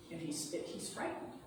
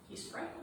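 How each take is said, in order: First: Said in the usual way. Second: Higher, soft and hushed; hushed frightened. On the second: Shown as a demonstration. Retelling Charles Wallace's fear, hushed and high.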